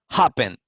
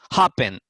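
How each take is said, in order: No difference in how they are said.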